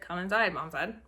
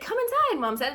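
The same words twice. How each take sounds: First: It is read in a flat, monotone voice. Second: It is read with lively, expressive inflection. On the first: The speaker calls it wrong. "instead of" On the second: The speaker calls it right. "work on that tone and inflection, maybe being better"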